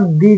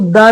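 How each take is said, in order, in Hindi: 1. यह शब्द लंबे 'ee' स्वर पर खत्म होता है। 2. यह शब्द छोटे 'uh' स्वर पर खत्म होता है। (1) "और दी भी करते हैं" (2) "इसको द भी प्रोनाउंस करते हैं"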